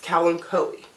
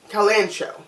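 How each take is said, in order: First: The middle consonant is a 'k' sound. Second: The middle consonant is a 'ch' sound. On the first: The speaker calls it right. "it is pronounced Kalanchoe" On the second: The speaker calls it wrong. "I pronounce it Calancho"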